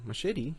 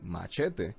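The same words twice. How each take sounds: First: It is pronounced with an English accent. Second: It is pronounced with a Spanish accent. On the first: "as people call it in English" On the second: "you should say it correctly. And you will say machete"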